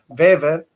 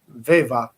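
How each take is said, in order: First: The name ends with an audible r sound. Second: The name ends with an a-like vowel sound. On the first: The speaker calls it wrong. "en general nosotros decimos Weber o Weber" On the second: The speaker calls it right. "en realidad se debería pronunciar Weber, Weber, así"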